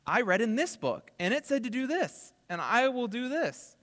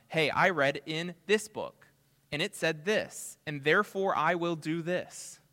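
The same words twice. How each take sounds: First: Higher and louder, fired-up conviction; eager zeal. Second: Said in the usual way. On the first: Retold or imitated. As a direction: say it like a member who just can't wait to obey. Same quote, repeated with zeal.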